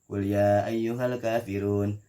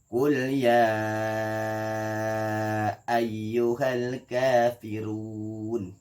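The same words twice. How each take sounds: First: The marked vowels are kept short and flat. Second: The marked vowels are drawn out very long. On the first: The speaker calls it wrong. "ya udah lempeng aja, nggak ada panjang-panjangnya" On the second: The speaker calls it right. "Jadi dibacanya panjang enam harakat"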